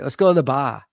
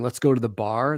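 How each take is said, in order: First: It is said in an imitated Boston accent. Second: It is said in a plain, neutral accent. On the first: "Boston people say" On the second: "instead of saying let's go to the bar"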